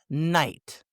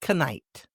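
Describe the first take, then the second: First: The word begins with an N sound. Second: The word begins with a K sound. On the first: The speaker calls it right. "It's night" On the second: The speaker calls it wrong. "not knight"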